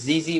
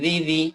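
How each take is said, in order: First: The consonants are said heavy and hard. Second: The consonants are said light and soft. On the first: The speaker calls it wrong. "জিজি বলা যাবে না" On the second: The speaker calls it right. "বলতে হবে জিজি"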